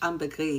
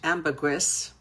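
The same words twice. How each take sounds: First: The final S sound is left silent. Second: The final S sound is pronounced. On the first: This is the French pronunciation. "in French ambergris, you don't pronounce the S" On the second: This is the English pronunciation. "it's actually pronounced in English"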